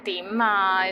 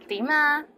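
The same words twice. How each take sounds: First: It is said in an impatient tone. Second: It is said in a nice, friendly tone.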